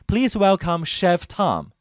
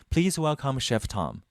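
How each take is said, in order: First: It is said with exaggerated, overacted expression. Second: It is read stiffly, like rigid reading.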